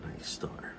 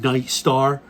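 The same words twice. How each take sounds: First: Breathy whisper of the name "Night Star". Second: "Night Star?" asked louder, with disbelief; incredulous. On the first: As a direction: mouth "Night Star" under the breath, unvoiced. Mulling the gun's model name. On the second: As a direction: scoff at "Night Star", lifting "Star". Mocking the gun's model name. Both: Real, not acted.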